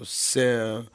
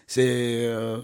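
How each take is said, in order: Both takes have the same delivery.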